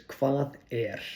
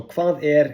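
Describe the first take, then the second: First: "Hvað er" said as kvath air, falling; spoken clearly in Icelandic; Icelandic phrase demo. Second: "Hvað er" stressed on er, louder; emphatic teaching repeat; louder Icelandic demo. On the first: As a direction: model "Hvað er" slowly for learners. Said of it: "the simplest way I could think of to say it is". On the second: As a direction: repeat "Hvað er" firmly for the class. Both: Shown as a demonstration.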